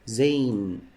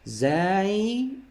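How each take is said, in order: First: The name ends with an n sound. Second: The name ends without an n sound. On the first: The speaker calls it wrong. "don't say Zain" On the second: The speaker calls it right. "Remember please, Zai"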